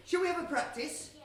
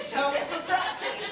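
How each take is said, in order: First: Said in the usual way. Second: The same question called out higher and louder; louder repeat. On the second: Real, not acted. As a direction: call it again to wake the crowd. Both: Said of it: "I said".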